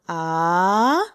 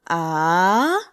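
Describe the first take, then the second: First: The pitch rises from middle to high. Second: The pitch rises from middle to high.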